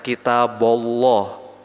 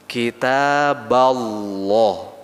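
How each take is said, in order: First: The syllable before Allah is said as a rounded 'bo'. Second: The syllable before Allah is said as an open 'ba'. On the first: The speaker calls it wrong. "jangan kita bolloh" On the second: The speaker calls it right. "Adanya kita ba, kita balloh"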